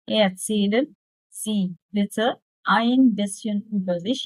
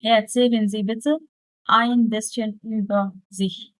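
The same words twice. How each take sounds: First: Very slow, word by word German; drawn-out teacher demo; slow dictation. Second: Slow model reading. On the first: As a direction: spell it out slowly for the student. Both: Shown as a demonstration. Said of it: "طب هحاول أمنتجها".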